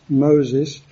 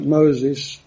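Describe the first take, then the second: First: "Moses" said with added weight; emphatic repeat. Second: Said in the usual way. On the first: Shown as a demonstration. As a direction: lean on "Moses" as the repeated name. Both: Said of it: "there's always an emphasis on the one afterwards".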